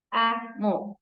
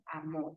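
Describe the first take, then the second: First: "Amor" in two beats, A, then mor; split into syllables. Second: Said in the usual way. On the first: Shown as a demonstration. Teacher showing two voice beats in "Amor", syllables separated. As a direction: break "Amor" after the A with a clear gap. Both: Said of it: "bisílabas son aquellas que tienen dos".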